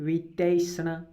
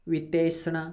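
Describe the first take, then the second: No difference in how they are said.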